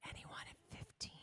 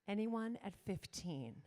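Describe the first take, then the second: First: It is said in a soft whisper. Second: It is said in a full, normal voice.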